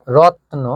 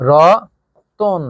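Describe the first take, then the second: First: রত্ন said as rotno with no vowel between t and n; clipped cluster রত্ন, t straight into n; pron 1. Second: রতন with a clear o after t, drawn out slowly; pron 2. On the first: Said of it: "রত্ন শব্দের উচ্চারণ কিন্তু ছিল এমন". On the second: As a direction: stretch রতন into ro-ton. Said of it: "এর উচ্চারণ হয়ে গেছে". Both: Shown as a demonstration.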